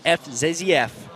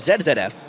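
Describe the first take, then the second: First: The letter Z is said as 'zee'. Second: The letter Z is said as 'zed'.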